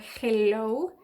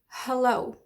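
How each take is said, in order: First: The first vowel is a full, clear vowel. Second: The first vowel is a weak schwa. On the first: The speaker calls it wrong. "you don't say hello or hello" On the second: The speaker calls it right. "you say hello"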